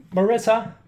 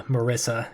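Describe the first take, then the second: First: High, loud call up the stairs; calling upstairs. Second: Said in the usual way. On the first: Acted. Dad calls his daughter down for dinner, high loud call. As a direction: sing out her name so she hears upstairs.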